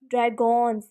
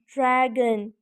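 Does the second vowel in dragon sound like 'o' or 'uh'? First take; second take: o; uh. First: The second vowel is a full 'o' sound. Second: The second vowel is a reduced 'uh' sound. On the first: The speaker calls it wrong. "O and on is not making sound of o. ... This is not a word" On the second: The speaker calls it right. "But O and on is making the sound of a"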